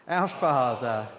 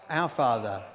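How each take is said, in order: Both takes have the same delivery.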